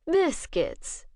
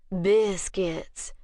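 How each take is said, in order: First: Biscuits said higher, with a quirk of a smile; amused agreement. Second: Slow drawl. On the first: Bishop humors the vampire woman, wry amused agreement. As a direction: indulge her with a wry little smile in the voice. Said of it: "Bishop agreed with a quirk of a smile". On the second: Vampire woman asks Bishop for biscuits, slow drawl. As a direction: stretch the word out, lazy and slow. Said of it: "drawled the woman". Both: Acted.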